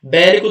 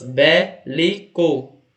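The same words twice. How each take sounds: First: Said in the usual way. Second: "Bélico" slowly divided as bé... li... co; syllable by syllable. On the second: Shown as a demonstration. Teacher counting three syllables for students, "Bélico" split slowly. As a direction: give each syllable of "Bélico" its own beat. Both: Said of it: "Três sílabas".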